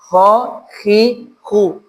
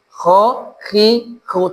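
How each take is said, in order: Both takes have the same delivery.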